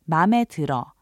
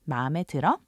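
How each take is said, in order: First: The voice falls at the end, as a statement. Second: The voice rises at the end, as a question.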